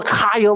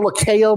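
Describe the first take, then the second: First: Lakia said as "uh-KY-uh", unsure of the name. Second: Lakia said as "luh-KAY-uh", a second guess; another guess at the name. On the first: Fumbling a rapper's name, [name] as "uh-KY-uh". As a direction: try Lakia with a long "eye" in the middle, no L at the start. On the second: Still unsure of the name, [name] as "luh-KAY-uh". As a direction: try Lakia with "kay" in the middle. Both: Real, not acted. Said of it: "whatever that girl name is".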